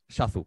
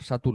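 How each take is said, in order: First: It begins with a sh sound, then z. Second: It begins with an s sound, then t. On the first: The speaker calls it right. "es Sha y Zu" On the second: The speaker calls it wrong. "no es Satu, por favor"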